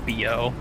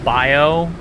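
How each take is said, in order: First: The first vowel sounds like 'bee'. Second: The first vowel sounds like 'bye'. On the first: This way is faster to say. "than saying bio" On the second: This way takes more time to say. "saying bio always takes more time"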